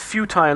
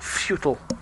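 First: Futile is said in a non-American pronunciation. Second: Futile is said in an American pronunciation. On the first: The speaker calls it right. "It's futile" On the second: The speaker calls it wrong. "not futile. ... Americans"

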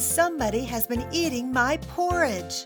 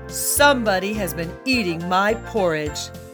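First: A medium-sized, middle-pitched voice says it. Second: A big, deep, growling voice says it. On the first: "In her medium-sized voice, she said" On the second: "In his great big voice, he growled"

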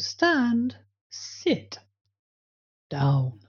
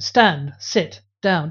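First: Each word has its own distinct pitch. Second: All three words share one flat pitch. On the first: The dog can easily tell the commands apart. The speaker calls it right. "it's easier for the dog to understand the difference" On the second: The dog struggles to tell the commands apart. The speaker calls it wrong.

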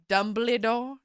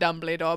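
First: The name is said with a French accent. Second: The name is said with an ordinary English accent. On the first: It imitates a French character's way of saying it. "I said it the way Madame Maxine says it" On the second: It is the usual way the name is said. "It's not Dumbledore"

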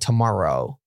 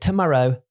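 First: It is said with an American accent. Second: It is said with a British accent. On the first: "很多美国的腔的英文 所以他们会说like tomorrow" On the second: "But now she's like tomorrow"

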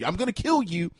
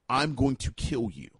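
First: It is said in a playful, joking tone. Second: It is said in a dead serious tone.

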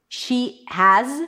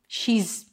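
First: Has is pronounced in full as a separate word. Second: Has is reduced to a z sound.

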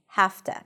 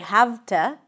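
First: The v turns into a voiceless f. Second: The v is voiced before 'to'. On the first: The speaker calls it right. "we say have to" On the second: The speaker calls it wrong. "we don't say have to"

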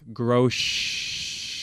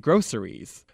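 First: It is said in a Michigan accent. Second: It is said in a California accent.

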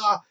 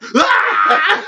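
First: It is a held-back, restrained cry. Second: It is a loud, intense cry.

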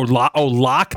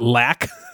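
First: The vowel sounds like the one in 'lock'. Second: The vowel sounds like the one in 'lack'. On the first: The speaker calls it right. "lock, not lac" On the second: The speaker calls it wrong. "not lac"

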